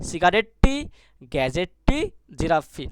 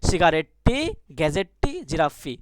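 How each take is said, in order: The two takes are said the same way.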